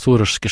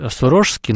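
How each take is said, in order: First: The stress is on the first syllable. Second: The stress is on a later syllable. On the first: This form is the one that became habitual in common usage. "с ударением на первый слог" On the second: This form follows grammar and historical usage. "с точки зрения грамматики и исторических реалий нужно говорить"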